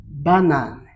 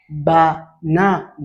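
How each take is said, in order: First: Said in the usual way. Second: "banane" slowly split as ba, na, ne; syllable by syllable. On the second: Shown as a demonstration. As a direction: sound out "banane" in three separate beats. (« banane » découpé lentement en ba, na, ne) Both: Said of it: "Ça nous donne le mot".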